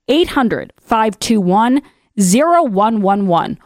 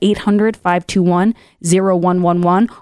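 First: The number is said very slowly. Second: The number is said at normal speed.

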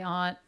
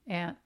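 First: The word has a broad 'ah' vowel. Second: The word sounds like the insect 'ant'. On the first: This is how the spelling suggests it should be said. The speaker calls it right. "It does seem like you should say aunt" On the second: This is how the speaker actually says it. The speaker calls it wrong. "especially since there are ants"

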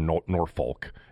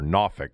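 First: It is said with another non-local pronunciation. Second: It is said with the local Virginia pronunciation. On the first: The speaker calls it wrong. "or Norfolk" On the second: The speaker calls it right. "That's how the people from down there, you know, pronounce it"

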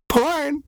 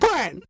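First: The word is said in a plain, neutral tone. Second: The word is said in a sultry, seductive tone. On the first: "I have to say porn, because you hate when I try to make it seductive" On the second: "Ew, it's a different word when you say it like that"

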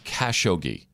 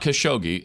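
First: The stress falls on the first syllable. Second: The stress falls on a later syllable. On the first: The speaker calls it right. "there's an emphasis on like the first syllable" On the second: The speaker calls it wrong. "So it's not Khashoggi"

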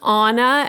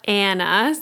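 First: The name sounds like the Frozen princess's name. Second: The name sounds unlike the Frozen princess's name. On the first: The speaker calls it right. "it's Anna ... so it's just like the Frozen princess" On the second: The speaker calls it wrong. "it's not Anna"

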